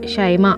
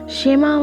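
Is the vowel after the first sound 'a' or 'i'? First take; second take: a; i. First: The first vowel is an open 'a' sound. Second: The first vowel is a short 'i' sound. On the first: The speaker calls it right. "बल्कि इसको ज़बर के साथ पढ़ेंगे" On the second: The speaker calls it wrong. "शिमा या नहीं"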